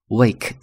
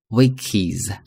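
First: The word ends in a voiced z sound. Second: The word ends in an added iz syllable. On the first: "可以发z" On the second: "可以发is"

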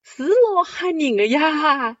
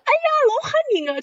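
First: It is said in a calm, gentle tone. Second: It is said in a jumpy, startled tone.

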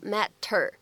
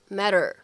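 First: The t is a clear, released t sound. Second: The t is a quick flap like d. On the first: The speaker calls it wrong. "并不读成matter" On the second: The speaker calls it right. "而会读成matter，感受一下啊这样的一个区别"

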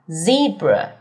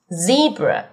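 Both takes have the same delivery.

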